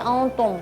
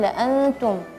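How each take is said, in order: First: The t sound is heavy and thick. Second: The t sound is light and thin. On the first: The speaker calls it wrong. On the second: The speaker calls it right.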